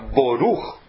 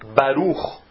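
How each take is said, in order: First: The first vowel sounds like O. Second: The first vowel sounds like A. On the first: It follows another reading tradition. "ou se você ler o Kamatz O" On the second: It follows one reading tradition. "Se você ler o Kamatz A"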